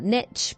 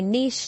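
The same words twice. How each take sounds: First: The word is said with a non-British pronunciation. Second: The word is said with a British pronunciation. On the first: "not niche" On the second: "I'm in the U K, so I say niche"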